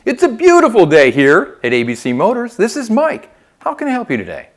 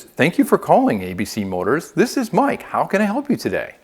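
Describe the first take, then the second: First: "beautiful day" loud and swooping, "Mike" pitched high; inflected greeting. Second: Said in the usual way. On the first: Shown as a demonstration. Coach models answering ABC Motors' phone with inflection, "Mike" lifted high. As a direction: lift "This is Mike" right up, big lively inflection. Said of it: "Put some inflection into it". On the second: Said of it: "A lot of times it's".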